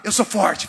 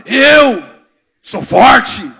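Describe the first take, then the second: First: "Eu sou forte" said lightly, no shout; a gentler take on "Eu sou forte"; the women's version. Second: Big chest-thumping shout of "Eu sou forte", much louder; manly shout. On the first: Pastor showing how the women say it, lightly voiced. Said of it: "As mulheradas falam assim". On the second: Pastor showing the macho men how to declare it, shouting. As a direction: bellow it like a tough macho man. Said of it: "Machão, fala, homem, fala". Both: Retold or imitated.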